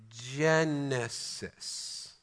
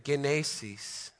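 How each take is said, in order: First: Genesis stretched very slowly, soft j, JEN-uh-sis; drawn-out Genesis. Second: Genesis said slowly with a hard g, ghen-AY-sis; Greek genesis. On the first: Preacher repeating the Greek word for the congregation, very slow. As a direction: linger over Genesis syllable by syllable. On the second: Preacher teaching the Greek word to his congregation, slow and careful. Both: Shown as a demonstration. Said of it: "Let me say one of the words again".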